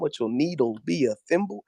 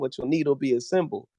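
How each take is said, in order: First: The s sound is said with a lisp. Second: The s sound is said plainly. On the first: You will need a thimble. "a completely different thing in Lisp" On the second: You will need a symbol. "means one thing in English"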